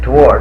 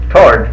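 First: The word is said with a W sound. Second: The word is said without a W sound. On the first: The speaker calls it wrong. "But toward is what most people call it" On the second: The speaker calls it right. "Tord is proper. ... The W is silent"

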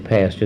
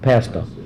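First: The second syllable starts with a ch sound. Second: The second syllable starts with a t sound. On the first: This is the standard form. The speaker calls it right. "They never did say pasture" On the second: This is how the tenants said it. The speaker calls it wrong. "They always said pastor, you know, pastor"

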